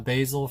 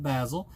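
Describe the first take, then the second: First: It is said the American way. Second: It is said the British way.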